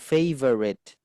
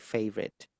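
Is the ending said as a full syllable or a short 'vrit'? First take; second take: full syllable; short vrit. First: The ending is said as separate fuller syllables. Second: The ending is squeezed into a short 'vrit'. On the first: The speaker calls it wrong. "bukan favorite" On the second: The speaker calls it right. "tapi vrit"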